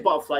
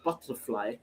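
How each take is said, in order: First: The T sounds are dropped. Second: The T sounds are clearly pronounced. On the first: This is casual working-class speech. "I say butterfly" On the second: This is proper speech. "instead of butterfly"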